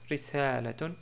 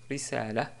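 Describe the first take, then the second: First: The word ends with a full -tun ending. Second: The word ends on a plain -a vowel.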